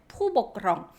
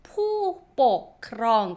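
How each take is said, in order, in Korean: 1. 빠르게 말하며, b 소리를 약하게 부드럽게 냅니다. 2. 각 음절을 적힌 대로 또박또박 말합니다. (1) "빨리 발음하다 보면 푸보크렁해서 ... 비읍 발음이 나요" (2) "적혀져 있는 태국어를 그대로 읽어주시면 포복크렁"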